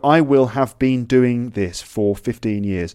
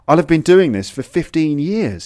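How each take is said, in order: First: I will have is said as full separate words. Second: I will have is reduced and linked together. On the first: "So you've got" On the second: "I will becomes I'll"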